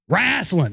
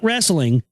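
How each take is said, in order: First: It is said as Southern 'wrasslin'. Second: It is said with a standard pronunciation. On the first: "how we call it down here in the South, boy. Wrestling. W R A S S L I N" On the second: "Not wrestling"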